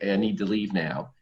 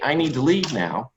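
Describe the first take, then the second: First: It is said with little energy. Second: It is said with the most energy. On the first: The speaker says it for the first time. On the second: The speaker feels even more unheard.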